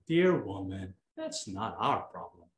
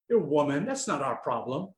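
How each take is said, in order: First: The line is said in a warm tone. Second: The line is said in a harsh tone. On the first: Jesus is speaking affectionately to his mother. The speaker calls it right. "But if you go like this, ... That's different, right?" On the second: Jesus is being dismissive of his mother. The speaker calls it wrong. "If you have that intonation, it's kind of rude"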